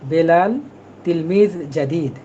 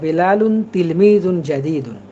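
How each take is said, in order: First: The words end without the -un case endings. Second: The words end with the -un case endings. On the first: This is how native speakers say it. "তারা ওই শেষের যে তানভিন, ... এগুলো উচ্চারণ করে না, এখানে ওয়াকফ করে" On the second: This is the full written form. "অথবা বেলালুন তিলমিজুন জাদিদুন। আপনি যেভাবেই বলেন না কেন সবভাবেই সঠিক।"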